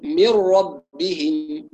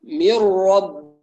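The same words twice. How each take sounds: First: من ربهم drawn out very slowly, mim with full kasra; full kasra on min. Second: Said in the usual way. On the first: Shown as a demonstration. (من ربهم بإتمام كسرة الميم ببطء) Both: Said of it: "مهم جدًا إتمام كسرة الميم".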